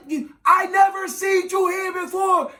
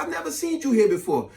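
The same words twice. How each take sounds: First: High-pitched, strained club shout; yelling over music. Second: Said in the usual way. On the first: Retold or imitated. Man repeating his pickup line, high mock yell. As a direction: holler each word over thumping music. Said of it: "You gotta yell when you're in a club". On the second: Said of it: "gave her the typical corny conversation".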